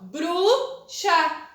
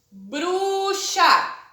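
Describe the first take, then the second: First: Bruxa with a small gap between bru and xa; louder Bruxa broken at the syllable; syllable break. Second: Bruxa with a pause between bru and xa; louder Bruxa split into bru and xa; syllable break. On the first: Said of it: "eu já separo por sílabas, pronunciando". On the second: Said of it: "Quando eu falo o bru ... intervalo aqui". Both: Shown as a demonstration.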